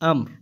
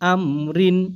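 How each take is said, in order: First: The word ends on a bare r sound. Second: The word ends with an -in sound. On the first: The reading stops at the end of the verse. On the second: The reading continues without stopping.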